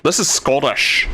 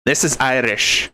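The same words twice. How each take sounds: First: "This is Scottish" in a light Scottish accent; a quick demo of a Scottish accent; short sample line said Scottish. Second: "This is Irish" in a light Irish lilt; a quick demo of an Irish brogue; short sample line said Irish; Irish accent. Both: Shown as a demonstration.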